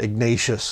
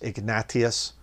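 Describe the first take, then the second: First: The name is said with an American pronunciation. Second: The name is said with a Spanish pronunciation. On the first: The speaker calls it wrong. "that's an American way to say it" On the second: The speaker calls it right. "that's the right way to say it"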